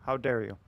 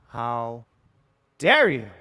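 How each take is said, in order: First: Said in the usual way. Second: Loud punched "dare you?" in hammed-up offence; mock outrage. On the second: Streamer hamming up offence at chat, loud mock outrage. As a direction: boom "dare" like fake outrage.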